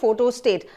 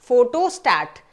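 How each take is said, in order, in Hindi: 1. आखिरी syllable 'stet' जैसा सुनाई देता है। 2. आखिरी सिलेबल 'stat' जैसा सुनाई देता है। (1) "ये गलत है" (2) "सही प्रोनाउंसिएशन है इसका"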